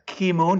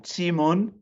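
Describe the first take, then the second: First: The name is said with an anglicized pronunciation. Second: The name is said with a Chinese pronunciation.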